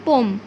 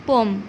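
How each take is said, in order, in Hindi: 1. यह शब्द एक अक्षर में बोला जाता है। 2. यह शब्द एक अक्षर में बोला जाता है।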